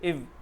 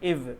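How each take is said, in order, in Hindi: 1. इस स्वर में छोटा i है। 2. इस स्वर में छोटा i है।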